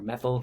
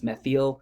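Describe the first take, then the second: First: The word is pronounced in the ordinary way. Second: The word is pronounced in an unusual way.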